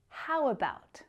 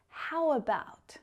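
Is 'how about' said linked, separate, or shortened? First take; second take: linked; linked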